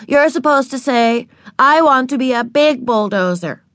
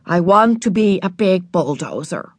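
First: Put-on higher, insistent little-kid correction. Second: Cross, reluctant reading aloud; grudging rereading. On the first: Little sister corrects her older sister's reading, insistent. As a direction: correct her firmly, pitched up. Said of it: "insisted Ramona". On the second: Older sister rereads the line to please little sister, grudging. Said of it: "said Beezus crossly". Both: A narrator's reading.

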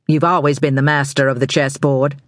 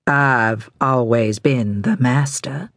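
First: Said in the usual way. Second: Slow, deliberate "I've always been the master"; pointed correction. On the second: A narrator's reading. Charles corrects Bobby, slowly stressing "I've always been the master". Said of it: "Charles corrected".

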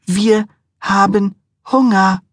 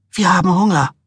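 First: High, slow, drawn-out whine; drawn-out whiny demand. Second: Insistent wife. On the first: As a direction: stretch out Hunger like a sulking child. Wife repeats, drawn out. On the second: Wife demanding food, repeated. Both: A narrator's reading.

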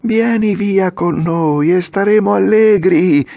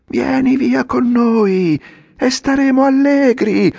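First: Put-on high, louder chorus of boys, slow call with a falling end on allegri; a few kids calling from the cart; four voices shouting. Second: Much higher, louder crowd yell, slow, falling on allegri; a whole cartful of boys roaring together; hundred voices yelling. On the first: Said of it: "gridarono altre quattro voci". (gridato da quattro voci, alto e forte) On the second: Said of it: "urlarono tutte insieme un centinaio di voci". (urlato da cento voci, altissimo e forte) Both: A narrator's reading.

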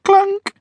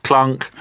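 First: Very high comic clunk sound. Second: Mock clunk. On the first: Pretend. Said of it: "stop doing it". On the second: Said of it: "All right, I'll stop doing it now".

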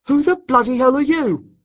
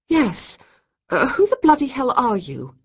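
First: High, loud shocked demand; outraged shout. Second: High, loud flustered demand; indignant demand. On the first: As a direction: bark it at the intruder. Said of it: "Jake asked the intruder". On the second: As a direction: demand it, caught off guard. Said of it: "Kate demanded". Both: A narrator's reading.

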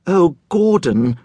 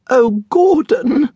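First: Slow, high, trembling-lipped plea; a touch of fear, drawn out; quivering. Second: Very high, slow frightened whimper. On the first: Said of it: "the woman's lips quivered". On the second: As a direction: whimper his name in fear, drawn out. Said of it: "the woman whimpered". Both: Acted.

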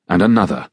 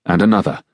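Both takes have the same delivery.

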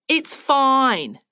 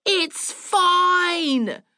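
First: Said in the usual way. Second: High, long-held "fine"; louder, demented yell. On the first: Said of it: "waved her away and said". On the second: A narrator's reading. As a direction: holler it back, stretching out FINE. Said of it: "louder and louder".

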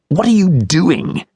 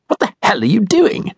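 First: High, slow, accusing question; the offended man glaring back at Dad; pitched-up indignation stretched out; indignant stranger. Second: Much higher, indignant demand; a self-righteous man rounding on Dad; high, outraged question rising at the end; voiced angry stranger. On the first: Guy confronts Dad again. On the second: Guy confronts Dad angrily. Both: A narrator's reading.

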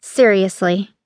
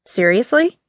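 First: Short, flat finality; a curt firm seriously. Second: Rising, incredulous "Seriously?"; disbelieving question. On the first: A narrator's reading. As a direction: shut the question down, no rise. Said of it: "she said curtly". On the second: Acted.

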